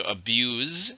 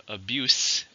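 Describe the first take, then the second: First: Abuse said slowly as a verb, ending with a voiced z sound; verb pronunciation. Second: Abuse said slowly as a noun, ending with a hissed s sound; noun pronunciation. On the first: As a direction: say abuse with a buzzing z at the end. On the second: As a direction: say abuse with a sharp s at the end. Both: Shown as a demonstration. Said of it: "but notice abuse".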